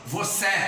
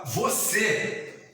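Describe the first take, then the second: First: The final vowel is open. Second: The final vowel is closed. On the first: The speaker calls it wrong. "você não fala você" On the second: The speaker calls it right. "você fala você"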